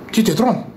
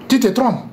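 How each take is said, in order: Both takes have the same delivery.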